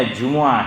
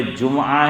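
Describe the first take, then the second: First: "جمعہ" as ju-mu-aa, u after the meem; correct Arabic pronunciation. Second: "جمعہ" as jum-aa, meem without a vowel; common mispronunciation. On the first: Preacher quizzing a listener with the right option, careful Arabic pronunciation. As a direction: say "جمعہ" slowly in three syllables, ju-mu-aa. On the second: Preacher quizzing a listener with the wrong option, everyday mispronunciation. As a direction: say "جمعہ" slowly in two syllables, jum-aa. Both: Shown as a demonstration. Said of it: "جمعہ ہے یا جمعہ ہے؟".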